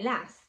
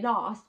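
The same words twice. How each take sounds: First: It is said in a Manchester accent. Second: It is said in a London accent. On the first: "but I say last" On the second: "You say last"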